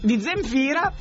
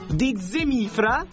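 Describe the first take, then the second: First: The name is said as Zem-fi-ra. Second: The name is said as Ze-mi-fra. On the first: The speaker calls it right. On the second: The speaker calls it wrong.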